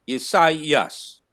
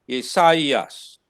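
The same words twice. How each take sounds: The two takes are said the same way.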